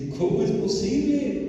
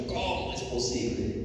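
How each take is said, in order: First: High, mock-weeping wail; retold tearful protest. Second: Mock indignant disbelief; mild retold indignation. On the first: Disciplined man crying over the injustice, high retold lament. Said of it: "me puse a llorar y a decir". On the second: Indignant churchgoer judging a drunken brother, mildly outraged. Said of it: "me daba mucho coraje con los hermanos".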